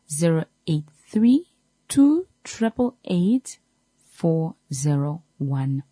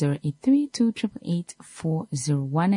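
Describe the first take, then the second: First: The number is said slowly. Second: The number is said at normal speed.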